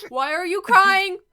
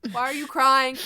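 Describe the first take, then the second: First: Higher and louder, rising into alarm; panicked question. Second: Slightly raised, louder questioning; tense question. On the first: Student demands again why someone is crying, panicked question. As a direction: push the question up toward a yell. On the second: Student questions someone crying in the dark, tense question. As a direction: ask it firmly, first try before panic builds. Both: Acted.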